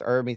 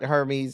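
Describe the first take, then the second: First: The name is said unlike the Greek god's name. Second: The name is said like the Greek god's name. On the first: The speaker calls it right. "It's pronounced Hermes" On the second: The speaker calls it wrong. "it's not pronounced like the Greek god Hermes"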